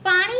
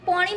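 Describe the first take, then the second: First: The first vowel is an open 'aa' sound. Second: The first vowel is a rounded 'o' sound. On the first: "પાણી નહીં" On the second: "પોણી બોલે ને એટલે સમજી જવાનું કે મહેસાણાવાળી"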